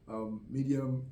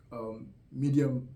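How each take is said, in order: Both takes have the same delivery.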